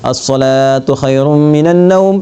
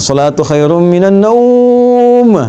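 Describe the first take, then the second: First: The word salatu is drawn out long. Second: The word naum is drawn out long.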